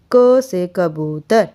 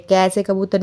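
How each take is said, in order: First: क said short as ka, slow and careful; correct short ka. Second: कै said as kai, with a clear e vowel; wrong kai. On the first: Teacher showing students the right क, short and slow. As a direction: pronounce क with a short a, slowly. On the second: Teacher showing students the wrong कै, kai sound. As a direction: stretch कै into kai like children do. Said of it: "कै से कबूतर नहीं होता". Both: Shown as a demonstration.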